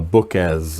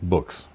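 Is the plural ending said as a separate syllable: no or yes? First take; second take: yes; no. First: The plural ending is a separate extra syllable. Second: The plural ending joins the word without a syllable. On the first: The speaker calls it wrong. "adding a syllable to the end of some plural forms" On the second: The speaker calls it right. "it's just one"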